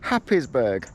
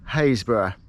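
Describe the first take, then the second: First: It sounds like Happis-burg, with every part sounded. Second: It sounds like Haysborough, shorter and contracted. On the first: The speaker calls it wrong. "you would think it's called Happisburgh" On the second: The speaker calls it right. "obviously this is spelt Haysborough"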